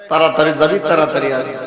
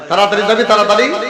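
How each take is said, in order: First: It is said at normal volume. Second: It is said loudly and sharply.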